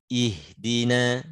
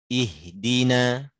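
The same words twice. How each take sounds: Both takes have the same delivery.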